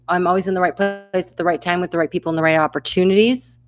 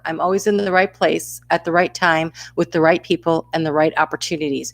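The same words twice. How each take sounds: First: It is said at a normal pace. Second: It is said more slowly.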